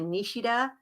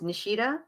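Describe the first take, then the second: First: The name is said with a Japanese pronunciation. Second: The name is said with an American pronunciation. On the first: This is the technically correct original form. "probably Nishida if you're going to be technical about it" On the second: This is the everyday form the speaker uses. "the way I say it ... that's the Americanized version"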